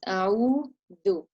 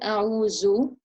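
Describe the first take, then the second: First: The middle consonant is a buzzing 'th' sound. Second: The middle consonant is a 'z' sound. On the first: The speaker calls it right. "it's a'udhu" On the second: The speaker calls it wrong. "It's not a'uzu"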